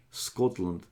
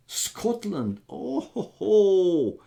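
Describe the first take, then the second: First: Said in the usual way. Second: High, delighted exclamation of Scotland then chuckle; light up at the word Scotland; excited Scotland. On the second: Real, not acted. Streamer reacting to a viewer from Scotland, delighted.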